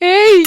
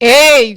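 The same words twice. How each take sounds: First: It is called out in a romantic tone. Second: It is called out in an angry tone. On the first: "ఇప్పుడు romantic గా?" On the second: "కోపంగా?"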